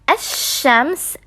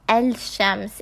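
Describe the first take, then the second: First: The l merges into a doubled sh sound. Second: The l is clearly pronounced before sh. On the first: The speaker calls it right. "making it sound like ash-shams" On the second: The speaker calls it wrong. "and not al-shams. It is wrong to read it like that"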